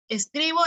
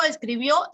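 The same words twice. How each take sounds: First: "escribo" hit on the middle syllable; stress on CRI of escribo. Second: "escribió" hit on the last syllable; stress on BIÓ of escribió. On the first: (acento en CRI de «escribo») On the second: (acento final en BIÓ de «escribió») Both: Shown as a demonstration. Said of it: "es distinto".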